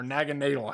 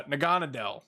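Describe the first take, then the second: First: Naganadel in an alternative pronunciation. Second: Naganadel in its first pronunciation variant. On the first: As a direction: offer Naganadel as the other way of saying the name. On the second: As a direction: say Naganadel the first way, as a name being tried out. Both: Real, not acted. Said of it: "however you wanna pronounce it".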